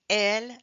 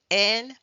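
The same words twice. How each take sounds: The two takes are said the same way.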